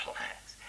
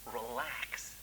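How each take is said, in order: First: Whispered soothing. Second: Soothing doctor. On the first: Doctor soothing the boy. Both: Acted.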